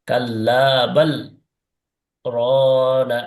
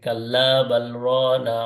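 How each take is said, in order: First: There is a brief pause after 'bal'. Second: The words run together without a pause. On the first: The speaker calls it right. "বাল বলে কি করলাম, একটু থেমে গেলাম" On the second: The speaker calls it wrong. "এভাবে পড়ে গেলাম"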